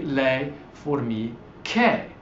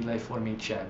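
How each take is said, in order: First: Le formiche with a hard k sound; le formiche, the che said as a hard kay; correct plural. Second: Le formiche with a soft ch sound, as if there were no H; le formiche, the che said like cheh; wrong plural. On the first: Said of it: "We're sticking an H at the end of formica". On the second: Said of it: "otherwise it'd be". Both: Shown as a demonstration.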